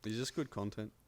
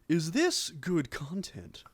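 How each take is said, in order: First: It is said in his own normal voice. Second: It is said as a Bateman impression.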